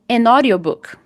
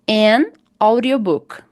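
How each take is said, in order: First: The final n links smoothly into the next word. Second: The two words are said separately with a break. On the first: The speaker calls it right. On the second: The speaker calls it wrong.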